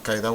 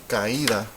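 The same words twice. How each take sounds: First: Caída run together as CAI-da; unwanted diphthong. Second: Caída in three syllables, ca-Í-da; correct hiatus. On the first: Teacher rejecting the unmarked reading, unwanted diphthong. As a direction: say caída in two syllables, stressed on CAI. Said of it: "we don't want caída". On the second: Teacher giving the wanted reading, correct hiatus. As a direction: break a from stressed í in caída. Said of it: "we want caída". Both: Shown as a demonstration.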